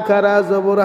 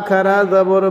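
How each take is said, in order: No difference in how they are said.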